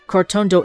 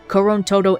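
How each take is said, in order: First: The name is said like Cortondo. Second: The name is said like Korontoro. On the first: The speaker calls it right. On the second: The speaker calls it wrong.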